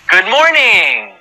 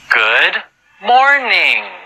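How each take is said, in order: First: It is said very fast. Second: It is said slowly.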